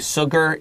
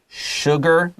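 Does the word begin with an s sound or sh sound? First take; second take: s; sh. First: The word begins with a plain s sound. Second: The word begins with an sh sound. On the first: The speaker calls it wrong. "Don't say sugar" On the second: The speaker calls it right. "it's sugar. Sugar is an S H sound"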